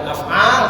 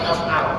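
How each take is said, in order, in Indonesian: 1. Vokal akhirnya dipanjangkan. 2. Vokal akhirnya tetap pendek. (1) "bukan af'al" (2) "tidak panjang, bukan af'al tetapi af'al"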